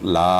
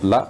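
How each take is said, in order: First: The vowel is drawn out long. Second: The vowel is kept short. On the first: It means no. "একটু টেনে পড়বেন" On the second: It means indeed. "লামের উপরে শুধু জবর হবে"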